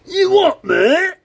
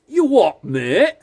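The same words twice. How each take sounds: First: The imitation is strongly exaggerated and emphatic. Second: The imitation is mild and only lightly stressed. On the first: The speaker calls it right. "Let me try and emphasise" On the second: The speaker calls it wrong. "No, he doesn't sound like that"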